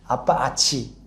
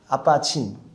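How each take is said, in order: First: The second word is said without its first consonant. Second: The second word is clipped to a single syllable. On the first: "아빠아치" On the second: "발음이 좀 안 돼가지고 아빠친 이렇게"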